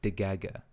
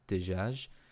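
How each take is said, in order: First: The word is said with a hard G sound. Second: The word is said with a soft J sound. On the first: "instead, they'll say degaga" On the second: "with like a J"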